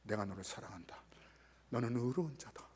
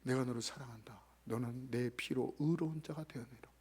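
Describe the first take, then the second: First: Low, soft, breathless whisper of love; God whispering love to the boy; whispered tender words. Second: Low, soft and tender; Jesus comforting the hurt boy, tenderly. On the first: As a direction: whisper God's love as a secret. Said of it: "거룩하신 하나님께서". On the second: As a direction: speak love gently like Jesus to a child. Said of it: "거룩하신 예수님께서요". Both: Retold or imitated.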